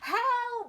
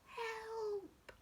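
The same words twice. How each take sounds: First: It is said loudly. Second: It is said quietly.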